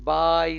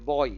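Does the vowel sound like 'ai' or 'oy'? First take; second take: ai; oy. First: The vowel glides from 'a' to 'y'. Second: The vowel glides from 'o' to 'y'. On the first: The speaker calls it wrong. "बाय नहीं होता है" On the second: The speaker calls it right. "देखिए इसको बॉय कहेंगे"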